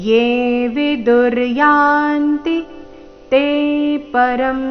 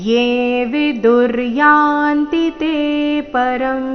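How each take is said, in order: The two takes are said the same way.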